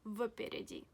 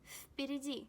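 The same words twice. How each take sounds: First: The first sound is a voiced v. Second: The first sound is a voiceless f. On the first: The speaker calls it wrong. "and not впереди" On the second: The speaker calls it right. "we have to pronounce V as F"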